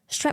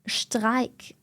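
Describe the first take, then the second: First: The word is said with English pronunciation. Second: The word is said with German pronunciation. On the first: A German listener does not understand it. The speaker calls it wrong. "if you give me a German word, but I pronounce it English" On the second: A German listener understands it. The speaker calls it right. "now it makes sense"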